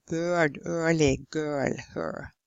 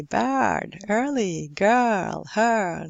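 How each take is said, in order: First: Put-on "bird, early, girl, her" with rounded lips, like Norwegian ö; over-rounded vowel. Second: Put-on "bird, early, girl, her" with spread, smiling lips; smiled, unrounded vowel. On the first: Teacher showing what not to say, "bird, early, girl, her" with Norwegian lip rounding. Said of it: "to smile and to not say". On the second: Teacher modelling English vowel for Norwegians, "bird, early, girl, her" with unrounded lips. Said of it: "is to smile as you say". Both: Shown as a demonstration.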